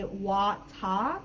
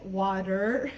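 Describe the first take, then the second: First: "wata" with a crisp t and no final r; "wata" ending on an open ah; British pronunciation. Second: "water" with a tapped d-like t and final r; "water" ending on a strong American r; American pronunciation. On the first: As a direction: say "wata" the British way, WAW-tah. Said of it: "the U K pronunciation, they would say". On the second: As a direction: say "water" the American way, WAH-der. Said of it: "versus in U S". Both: Shown as a demonstration.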